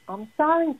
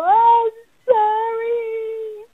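First: Said in the usual way. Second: High, slow, crying "I'm sorry"; sobbing apology. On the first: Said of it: "what are they saying". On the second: Acted. Child forced to apologize to a sibling, sobbing. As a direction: sob it out like a child caught in the wrong. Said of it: "this is what they feel like".

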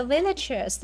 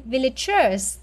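First: "villagers" stressed on VIL; stress on first syllable. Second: "villagers" with the stress moved to GERS; stress on third syllable. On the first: Teacher correcting a student, "villagers" stressed on its first syllable, VIL. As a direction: hit the first syllable of "villagers", let the rest fall. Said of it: "that is nhấn âm nhất". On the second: Teacher correcting a student, "villagers" wrongly stressed on its third syllable, villa-GERS. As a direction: lean hard on the last syllable of "villagers". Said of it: "Nó mới là nhấn âm ba". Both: Shown as a demonstration.

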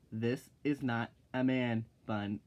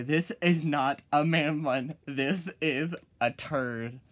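First: Said in the usual way. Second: Louder, slow and emphatic; loud slow retort. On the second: Shown as a demonstration. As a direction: lay it down firmly and loudly. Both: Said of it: "I'll say".

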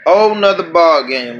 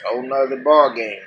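First: Louder repeat, WHOLE punched; repeated with emphasis. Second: Said in the usual way. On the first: Real, not acted. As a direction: hit the word Whole hard the second time.

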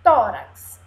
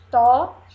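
First: Said in the usual way. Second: Loud TÓ, long pause, RAX; in syllable pieces. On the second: Shown as a demonstration. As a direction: split "Tórax" with a clear gap after the first syllable. ("Tórax" em pedacinhos, forte: tó... rax) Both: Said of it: "Vamos ver os pedacinhos".

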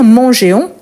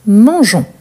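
First: Mangeons said as man-jay-on, the e sounded before ons; wrong pronunciation. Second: Mangeons said as man-jon, the e kept silent; correct pronunciation. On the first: Teacher to class showing the wrong way: mangeons with the e sounded. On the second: Teacher to class modelling the right way: Mangeons with silent e. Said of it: "Donc, on dit mangeons". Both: Shown as a demonstration.

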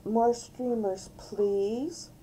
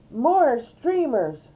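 First: High but restrained motherly correction; polite reminder. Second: Loud, high, drawn-out demand. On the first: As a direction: gently model the polite way to ask. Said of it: "Mom reminded her". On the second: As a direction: demand it like a bossy child. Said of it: "D W demanded". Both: A narrator's reading.

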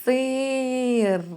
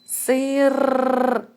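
First: "Сир" with the и drawn out long to isolate the vowel sound; stretching the vowel. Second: "Сир" with the final р held and rolled, set a little higher; stressing the last sound. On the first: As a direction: lean on the и in "Сир", holding it for the class. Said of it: "Наступний звук у нас голосний". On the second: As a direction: hit the р at the end of "Сир" so the class hears it. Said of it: "І останній звук у нас який". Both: Shown as a demonstration.

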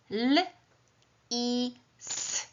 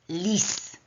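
First: "L, i, s" as three separate sounds; sounded out phonemes. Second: Said in the usual way. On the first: Shown as a demonstration. Teacher sounding out the fox word for pupils, phoneme by phoneme. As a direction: isolate "L", "i" and a hissed "s" with long pauses. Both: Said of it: "głoskuję ten wyraz".

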